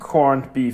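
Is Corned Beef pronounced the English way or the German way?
English. It is pronounced the English way. This is how the term is properly said in English. The speaker calls it wrong. "Es heißt nicht Corned Beef"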